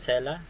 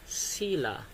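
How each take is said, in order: First: The first vowel sounds like 'eh'. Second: The first vowel sounds like 'ee'. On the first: The speaker calls it wrong. "Sela ba ang tawag dyan?" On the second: The speaker calls it right. "ang pronunciation dyan ay sila"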